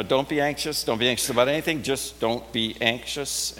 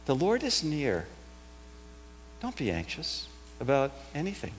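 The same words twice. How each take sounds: First: Flat, bare command with no comfort. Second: Soft, gentle comfort after a pause; reassuring. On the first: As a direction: say it as a cold order from nowhere. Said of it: "when that just hangs out there in space". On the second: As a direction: ease the fear out of them quietly. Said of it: "It's actually a reassuring voice". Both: Shown as a demonstration.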